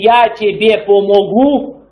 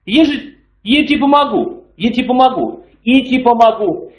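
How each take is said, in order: First: The opening word is pronounced fully and clearly. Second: The opening word is reduced and changed in sound. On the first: The speaker calls it wrong. "что нужно говорить не «я тебе помогу" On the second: The speaker calls it right. "Это «я» так превращается, трансформируется"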